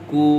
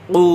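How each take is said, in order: First: Said in the usual way. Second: কু with a hard q from far back in the throat; deep Qaf. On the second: Shown as a demonstration. Teacher contrasting Qaf with Kaf, deep back-of-tongue কু. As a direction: pop the k of কু off the uvula. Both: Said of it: "দুইটার মধ্যে পার্থক্য".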